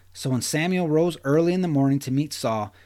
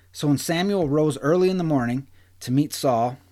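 No difference in how they are said.

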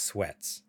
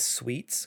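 First: The name has a short 'eh' vowel. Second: The name has a long 'ee' vowel. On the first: The speaker calls it right. "I think it's based off how it's spelled. I think it's sweats" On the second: The speaker calls it wrong. "I want to pronounce this sweets because it sounds nicer"

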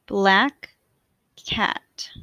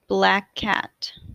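First: The words are said with a break between them. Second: The words are joined smoothly with no break. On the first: "I will say the words with a space in between" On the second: "in a more fluid way to demonstrate linking"

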